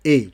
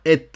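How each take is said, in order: First: "E" as a pure vowel "é", no T; silent T. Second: "et" with the final T pronounced, like "ette"; T wrongly sounded. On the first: Teacher correcting a student's "et", said as plain "E" without T. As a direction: say "E" like Spanish e, open-ended without consonant. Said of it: "Non, on dit E". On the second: Teacher showing what not to say, "et" with sounded T. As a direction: hit a hard T at the end of "et". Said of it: "on ne prononce pas et". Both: Shown as a demonstration.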